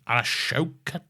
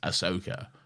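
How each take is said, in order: First: The name begins with the sound 'ash'. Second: The name begins with the sound 'ah-so'. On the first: The name is read the way it looks on paper. The speaker calls it wrong. "villains will always just mispronounce your name" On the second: This is how the name is meant to be said. The speaker calls it right. "Ahsoka's name is Ahsoka"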